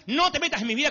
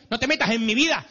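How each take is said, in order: First: Even higher, no pushed up; teen complaint, rising. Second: Put-on higher whiny teen, falling at vida; sulky teen protest, vida dropping; teen complaint. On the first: Retold or imitated. Teenager repeating his protest to mom, higher and insistent. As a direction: pitch the no up in protest. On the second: Teenager telling his mother to stay out, whiny. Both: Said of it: "nos dicen esas cosas".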